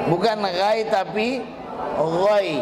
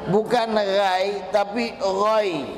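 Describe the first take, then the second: Both takes have the same delivery.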